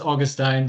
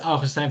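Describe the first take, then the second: First: The name is pronounced with English sounds. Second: The name is pronounced with Dutch sounds. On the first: "the anglicized version" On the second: "the Dutch pronunciation"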